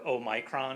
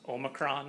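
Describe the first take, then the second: First: It is said with a British pronunciation. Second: It is said with an American pronunciation. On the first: "or Omicron if you're in uh, the U K" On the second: "it's pronounced Omicron in the United States"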